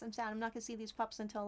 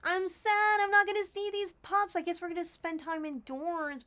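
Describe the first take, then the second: First: Said in the usual way. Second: Mock sad. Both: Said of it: "I'm actually kinda sad".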